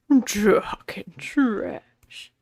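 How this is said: It is said imitating Freddie's voice.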